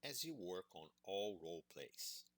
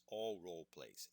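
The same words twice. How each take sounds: First: Said in the usual way. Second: All punched a little louder, falling after; stress on all. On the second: Shown as a demonstration. Teacher insisting it covers every role play, stress on all. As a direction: lean on the word all. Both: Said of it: "yes, all role plays".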